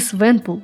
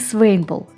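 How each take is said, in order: First: The name begins 'swen' and has two syllables. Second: The name begins 'swain' and has two syllables. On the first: "Не Свенпул" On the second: "не Свейнпул"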